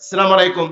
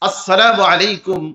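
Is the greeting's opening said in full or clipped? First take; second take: clipped; full. First: The greeting opens with a clipped 'salam'. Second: The greeting opens with a full 'as-salamu'. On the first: The speaker calls it wrong. "আমাদের এলাকায় যে কত ধরনের সালামের প্র্যাকটিস হয়" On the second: The speaker calls it right. "সালাম দিবেন শুদ্ধভাবে"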